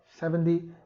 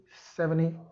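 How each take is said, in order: No difference in how they are said.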